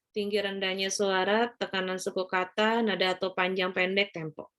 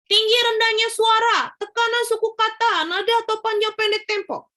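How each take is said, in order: First: The pitch stays flat and monotonous throughout. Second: The pitch stays too high throughout. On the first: "Sungguh sangat tidak menarik, flat" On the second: "Itu juga terlalu tinggi"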